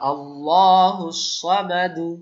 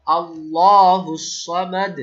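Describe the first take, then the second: First: Slow, louder chant ending সামাদু on u; Quran recitation, full vowel. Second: Very slow, louder chant stopping on সামাদ with a bounced দ; stopping with qalqala. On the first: Teacher recites with the full vowel before the stop. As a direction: recite সামাদু sounding the final u. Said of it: "পেশ দিয়ে দেখি". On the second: Teacher demonstrates stopping at the verse end for students. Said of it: "দাল সাকিন যখন হয়ে যাবে তখন কলকলা". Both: Shown as a demonstration.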